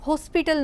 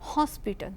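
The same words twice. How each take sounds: First: The first o vowel is closed and narrow. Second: The first o vowel is open and wide. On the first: The speaker calls it wrong. "હોસ્પિટલ નથી બોલતા" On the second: The speaker calls it right. "એ જે ઓ કે એનો પહોળો ઉચ્ચાર કરીએ છીએ"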